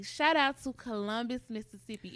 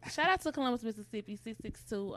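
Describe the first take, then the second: First: Proud shout-out. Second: Louder, higher hometown shout-out; proud shout-out. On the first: Repping her hometown. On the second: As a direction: hype up the hometown. Repping her hometown again. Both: Real, not acted.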